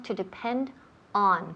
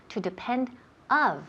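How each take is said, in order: First: ON set apart after a pause, dropping in pitch; correct preposition. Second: OF set apart after a pause, as the wrong word; common mistake shown. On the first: Teacher correcting a wrong preposition, firm model. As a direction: land "on" firmly and low after "depend". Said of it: "con la preposición on". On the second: Teacher warning about a wrong preposition, mistake demo. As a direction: hold up "of" as the error after "depend". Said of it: "no decir to depend of". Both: Shown as a demonstration.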